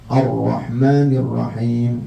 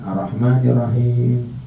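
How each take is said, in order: First: The r sound is held long and doubled. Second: The r sound is short and single. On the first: The speaker calls it right. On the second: The speaker calls it wrong.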